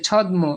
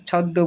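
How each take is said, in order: First: "ছদ্ম" said chhod-mo, the m sounded; spelling pronunciation. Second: "ছদ্ম" said chhod-do, m silent; doubled-d pronunciation. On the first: Teacher showing the class how not to say "ছদ্ম", sounding the m. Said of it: "আমরা তো বলি না যে". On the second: Teacher giving the class the spoken form of "ছদ্ম", chhod-do. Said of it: "ছদ্ম বলি". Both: Shown as a demonstration.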